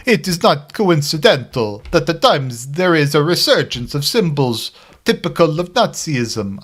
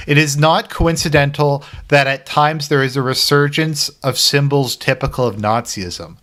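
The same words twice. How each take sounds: First: A lightly voiced Pope, pitched higher; Francis voice. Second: Said in the usual way. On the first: Vlogger reads the Pope's speech, higher mock Pope voice. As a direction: read the Pope's words as him, a little higher. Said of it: "let me try and do my Francis voice". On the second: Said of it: "so I'm just gonna say it".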